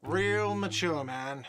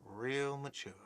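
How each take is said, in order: First: Whiny shout. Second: Muttered repeat. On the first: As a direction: call out "Real mature" in a slow whiny taunt. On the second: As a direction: mutter "Real mature" under the breath. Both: Acted. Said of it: "a whiny voice shouts".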